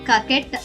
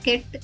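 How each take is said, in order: First: The k sound is said twice, as kaket. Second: The k sound is said once, as ket. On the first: The speaker calls it wrong. "కకెట్ అనకుండా" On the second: The speaker calls it right. "కేవలం కెట్ అంటాను"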